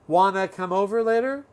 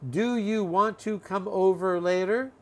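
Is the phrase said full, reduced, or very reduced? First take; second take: reduced; full. First: Want to blends into one short word. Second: Every word is said fully and separately. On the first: "A little shorter" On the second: "from long"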